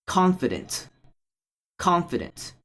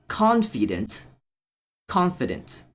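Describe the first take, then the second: Both takes have the same delivery.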